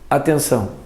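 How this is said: It is said flatly as a single word.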